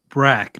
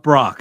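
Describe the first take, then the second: First: The vowel sounds like the one in 'back'. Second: The vowel sounds like the one in 'rock'. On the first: The speaker calls it right. "Brack, not Brock, not like broccoli" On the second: The speaker calls it wrong. "not Brock, not like broccoli"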